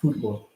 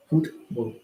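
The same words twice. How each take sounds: First: Said in the usual way. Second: A light British accent on Football. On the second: Shown as a demonstration. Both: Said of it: "You gotta add the accent".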